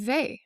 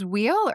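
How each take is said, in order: First: The name is said the French way. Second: The name sounds like the word wheel. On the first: The speaker calls it right. "she's French, and so it's actually Weil" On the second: The speaker calls it wrong. "I thought it was wheel"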